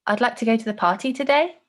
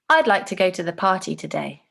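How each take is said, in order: First: "today" lifted high at the end like a question; rising tone. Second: "today" falling at the end, decided and certain. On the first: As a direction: sound unsure, tune climbing up on "today". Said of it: "the second way I'm gonna say it". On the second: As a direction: say it as a firm decision, tune dropping on "today". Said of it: "say one phrase in two different ways". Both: Shown as a demonstration.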